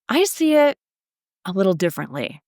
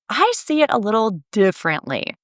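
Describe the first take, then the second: First: A slight dramatic pause comes before the stressed word. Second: It flows without a pause, stressing 'differently'. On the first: "make use of a slight pause for drama, for emphasis" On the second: "it is more powerful if you stress the word differently"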